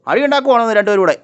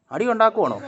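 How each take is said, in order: First: Louder, higher telling-off; loud scolding. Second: Said in the usual way. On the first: Real, not acted. Owner scolding two dogs for fighting, loud and high. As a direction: break up the dogs' fight with your voice.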